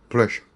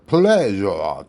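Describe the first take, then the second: First: The middle consonant is a voiceless hissing sound. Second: The middle consonant is a voiced buzzing sound. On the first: It is the relaxed everyday pronunciation. "편하게" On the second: It is the careful textbook pronunciation. "정확하게 발음할 것 같지만"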